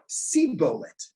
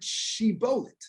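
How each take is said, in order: First: The word begins with an s sound. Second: The word begins with a sh sound. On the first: The speaker calls it wrong. "they had a lisp. They said Sibolet" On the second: The speaker calls it right. "Say the word shibolet"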